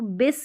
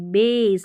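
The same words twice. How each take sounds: First: The vowel is short. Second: The vowel is long. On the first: The speaker calls it wrong. "इसको बेस नहीं बोलेंगे" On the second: The speaker calls it right. "लंबा उच्चारण ए का"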